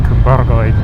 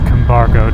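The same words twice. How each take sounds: First: It is said roughly with Welsh sounds. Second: It is said as English spelling suggests. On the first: The speaker calls it right. "It's actually something like Cumbargoed, uh, which I have butchered" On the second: The speaker calls it wrong. "not properly pronounced that way. That's how it reads to an Anglophone"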